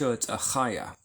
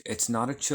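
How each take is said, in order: First: A chaya with a throaty ch; guttural Achaya. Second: Ch like English church, tch. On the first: Teacher correcting the reading, guttural ch. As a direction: rasp the ch in chaya. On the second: Teacher reading from Lazar Linnaeus, the wrong English ch. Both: Shown as a demonstration.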